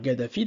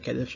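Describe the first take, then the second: First: The name begins with a G sound. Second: The name begins with a K sound. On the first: This is the English form of the name. "en anglais on va dire Gaddafi" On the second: This is the French form of the name. "nous on va dire Kadhafi en français"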